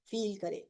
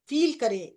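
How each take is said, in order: First: Soft. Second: Said in the usual way. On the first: Shown as a demonstration. Guide inviting the group to feel within, soft. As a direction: let feel करें sink to a soft hush.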